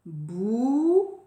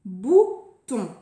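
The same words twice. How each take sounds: First: "Bouton" with bou long and rising, long pause, ton; syllable counting. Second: "Bouton" louder, in two short beats; word announcement. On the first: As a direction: count out "Bouton" for children to join in. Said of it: "Allez, vous faites avec moi". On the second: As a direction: present "Bouton" clearly with a brief gap. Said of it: "Nouveau mot". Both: Shown as a demonstration.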